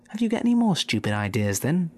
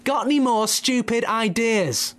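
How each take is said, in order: First: Said in the usual way. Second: "Got any more stupid ideas?" yelled high and loud at a deaf man; much higher shout, as if to a deaf ear; shouted back. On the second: Acted. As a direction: bellow it so a deaf man hears. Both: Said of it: "Bunce shouted back".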